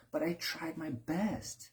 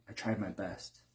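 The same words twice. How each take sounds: First: Whiny excuse. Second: Said in the usual way. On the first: Retold or imitated. Mock defensive excuse.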